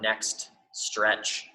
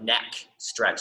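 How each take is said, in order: First: The t in next is clearly pronounced. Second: The t in next is dropped completely. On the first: The speaker calls it right. "I always like to enunciate the word next" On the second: The speaker calls it wrong. "if I don't, it sounds like neck stretch"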